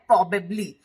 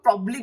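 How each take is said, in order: First: The word is said in full, three syllables. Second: A syllable is dropped, giving two syllables. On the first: "यहाँ पे दिया है प्रोबेबली" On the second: "जल्दी में बोलते हैं उसको या एक ईज में बोलते हैं तो हम प्रॉब्ली भी बोल देते हैं"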